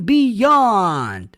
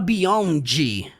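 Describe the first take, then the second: First: The final D is barely heard. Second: The final D is pronounced clearly. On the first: The speaker calls it right. "é mais sutil. E o D realmente você não vai escutar" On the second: The speaker calls it wrong. "Ele não fala beyond"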